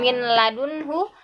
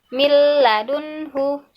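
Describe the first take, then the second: First: The n is pronounced clearly before the l. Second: The n merges into a briefly held l. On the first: The speaker calls it wrong. "bukan min ladunhu" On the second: The speaker calls it right. "Yang betul milladunhu"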